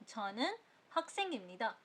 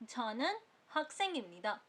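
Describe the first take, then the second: The two takes are said the same way.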